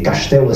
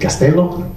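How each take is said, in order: First: The s is pronounced as sh. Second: The s is pronounced as a plain s. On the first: This is how it is said in Portuguese. "Le S se prononce che en portugais" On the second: This is how it is said in Spanish. "En espagnol, vous savez, on dit castello"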